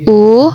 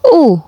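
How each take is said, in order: First: The vowel carries the second tone. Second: The vowel carries the fourth tone. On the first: "nada kedua" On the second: "nada keempat"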